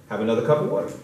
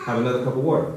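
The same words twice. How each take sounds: The two takes are said the same way.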